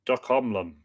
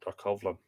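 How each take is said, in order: First: "docomlon" sounded out with an m before the final syllable; tentative pronunciation. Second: "Docovlon" with a v sound in the middle, softly; alternative pronunciation. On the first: Reader attempting an Irish word aloud, tentative pronunciation. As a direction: try "docomlon" with a clear m sound. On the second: Reader second-guessing an Irish word, alternative pronunciation. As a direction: softly test "Docovlon", v before the last syllable. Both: Shown as a demonstration. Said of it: "Or is that Doco".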